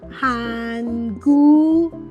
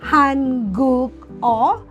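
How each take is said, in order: First: The final consonant joins the following vowel. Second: The final consonant stays separate from the vowel. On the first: The speaker calls it right. "it is pronounced as" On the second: The speaker calls it wrong. "instead of reading it as"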